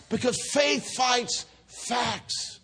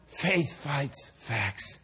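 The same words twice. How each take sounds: First: High, slow, drawn-out declaration; emphatic preaching. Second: Very slow, low and soft; slow, measured statement. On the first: Preacher to congregation after Isaac's birth, emphatic preaching. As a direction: proclaim it as the climax. Climactic return of sermon point. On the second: Preacher to congregation after birth story, slow measured statement. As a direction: let each word land quietly. Sermon point stated first time. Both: Real, not acted.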